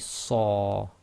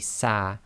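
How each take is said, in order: First: The consonant is heavy, with a back vowel. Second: The consonant is light, with a front vowel. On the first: The speaker calls it right. "it must be sa" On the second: The speaker calls it wrong. "you can't say sa"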